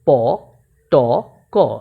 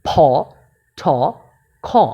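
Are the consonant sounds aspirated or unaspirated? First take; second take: unaspirated; aspirated. First: The sounds are said without a puff of air. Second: The sounds are said with a puff of air. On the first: This is how local speakers say it. The speaker calls it wrong. "আমরা বলি প ট ক" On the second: This is how native speakers say it. The speaker calls it right. "তারা বলছে ফ ঠ খ"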